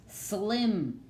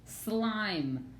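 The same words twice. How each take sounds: First: "Slim" with a short "ih", stretched for teaching; short-vowel "Slim", higher and deliberate. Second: "slime" with an "eye" vowel, pitched up; long-vowel "slime", higher and deliberate. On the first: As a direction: say "Slim" with the closed vowel, pitched up. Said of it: "the vowel sound is short". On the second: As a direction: let the I in "slime" say its name. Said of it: "it says that long sound". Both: Shown as a demonstration.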